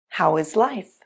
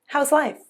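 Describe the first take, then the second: First: 'How is' is said as two full words. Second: 'How is' is contracted to 'how's'.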